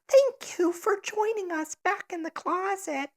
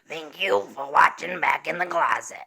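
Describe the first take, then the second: First: It is said in a nerdy little boy voice. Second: It is said in a raspy old grandmother voice.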